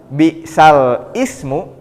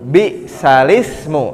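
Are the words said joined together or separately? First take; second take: separately; joined. First: The two words are kept separate. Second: The two words are run together. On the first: "yang awalnya bisal ismu" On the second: "nakal, dipindahkan jadi bisalismu"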